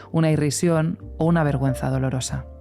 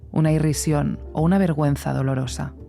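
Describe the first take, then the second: Both takes have the same delivery.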